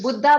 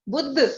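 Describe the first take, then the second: First: The word ends with an added a vowel. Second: The word ends on the consonant dh. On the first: The speaker calls it wrong. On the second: The speaker calls it right.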